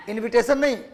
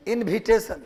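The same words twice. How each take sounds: First: इनविटेशन said with a clean v, as in-vi-te-shan; the correct इनविटेशन with a v sound; standard English v. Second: इनविटेशन said with bh for v, as in-bhi-te-shan; Bihari pronunciation. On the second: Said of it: "तो ये हमारा tone है". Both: Shown as a demonstration.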